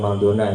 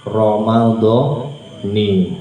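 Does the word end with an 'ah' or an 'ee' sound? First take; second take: ah; ee. First: The word ends with an 'ah' vowel. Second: The word ends with an 'ee' vowel. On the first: The speaker calls it wrong. "jangan Ramadhana ya" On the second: The speaker calls it right. "yang betul itu dibacanya ni bukan na"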